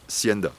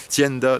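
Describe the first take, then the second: First: The word begins with an S sound. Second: The word begins with a T sound. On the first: The speaker calls it wrong. "ça se prononce pas Sienda" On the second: The speaker calls it right. "avec un T"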